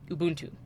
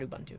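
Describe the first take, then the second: First: It is said with the original African pronunciation. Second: It is said with an English-style pronunciation. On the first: The speaker calls it right. "the way it was meant to be pronounced in their language" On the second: The speaker calls it wrong.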